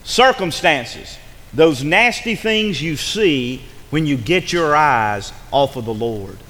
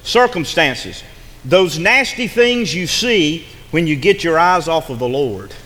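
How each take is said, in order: First: Slower, deliberate dictation pace; slower repeat. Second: Slow, weighty definition; slow emphatic definition. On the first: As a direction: say it again slowly so they catch every word. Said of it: "Let me say that again". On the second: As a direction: lay it out slowly for them to write down. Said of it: "and I want you to listen". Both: Shown as a demonstration.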